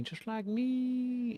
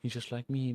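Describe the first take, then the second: First: Very high, drawn-out squeak; high playful squeal. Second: Said in the usual way. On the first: Pretend. Streamer delighted at a kindred character, high drawn-out squeal.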